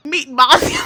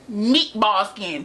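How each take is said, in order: First: Loud, high burst through laughter; real helpless laughing outburst; cracking up. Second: Slow, stretched-out roast; deliberate, dragged-out dig; drawn-out insult. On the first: Real, not acted. Cracking up at own insult. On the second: Acted. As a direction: draw out each word of the insult. Insulting coworker in a drawn-out read.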